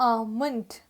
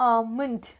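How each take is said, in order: Both takes have the same delivery.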